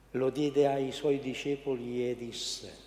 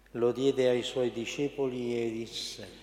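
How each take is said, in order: The two takes are said the same way.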